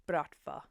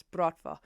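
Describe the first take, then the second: First: Said in the usual way. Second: Bratva in a lightly lowered, louder Russian growl; a hint of a Russian mafia man saying Bratva; deep Russian male voice. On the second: Imagining the Russian hero saying Bratva, mock deep voice. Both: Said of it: "a deep male Russian voice".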